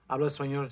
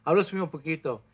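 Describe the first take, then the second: First: ¿Hablo español? repeated back as a viewer's question; repeating the question. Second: Hablo español poquito said as a plain answer with a falling end; answering statement. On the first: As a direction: echo ¿Hablo español? as if reading the question aloud. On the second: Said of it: "Sí, poquito". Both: Shown as a demonstration.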